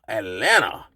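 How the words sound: The middle t sound is dropped entirely. The speaker calls it right. "A L L A N A"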